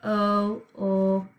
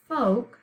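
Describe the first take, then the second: First: "f-o-o-k" in separate sounds, the silent L voiced; think-to-spell pronunciation. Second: "folk" as one word, the L silent; spoken pronunciation. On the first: Teacher showing how to think to spell it, sound by sound. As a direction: break "f-o-o-k" into f, oh, ull, k. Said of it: "we're going to think to spell". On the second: Teacher showing how we say it, one smooth word. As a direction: say "folk" whole, rhyming with oak. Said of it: "So we say it folk". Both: Shown as a demonstration.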